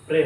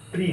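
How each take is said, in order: First: "প্রে" with an e vowel; "প্রে" with open e; correct syllable. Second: "প্রি" with an i vowel; "প্রি" with close i; mistaken syllable. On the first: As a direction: say "প্রে" as preh. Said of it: "প্রে হবে". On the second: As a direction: say "প্রি" as pree. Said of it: "প্রি না". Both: Shown as a demonstration.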